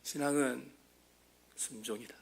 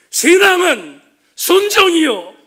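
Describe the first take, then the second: First: "신앙은 순종이다" dropped to a near-whisper, much softer and lower; hushed echo. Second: "신앙은 순종이요" cried out much louder and higher, slow, dialect ending 이요; Pastor Ok's Gyeongsang shout. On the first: Real, not acted. Preacher quietly repeating the lesson to the congregation, hushed. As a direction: let "신앙은 순종이다" fall almost silent after the cry. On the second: Retold or imitated. Preacher echoing a dying pastor's cry to his church, loud slow shout. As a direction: hammer home "신앙은 순종이요" as an impassioned Gyeongsang plea. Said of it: "경상도 사투리로 이렇게 외쳤던".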